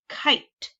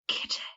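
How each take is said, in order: First: The vowel is long, as in 'eye'. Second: The vowel is short, as in 'bit'. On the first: The speaker calls it right. "That sounds like the word" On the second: The speaker calls it wrong. "doesn't sound right"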